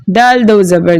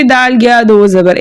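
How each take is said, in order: First: Said in the usual way. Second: "दाल गया दो जबर" with an extra letter name slipped in after दाल; wrong reading demo. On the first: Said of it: "हम कैसे पढ़ेंगे?". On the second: Shown as a demonstration. Teacher shows pupils the wrong way, "दाल गया दो जबर" with the extra letter spoken. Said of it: "ऐसे नहीं पढ़ेंगे".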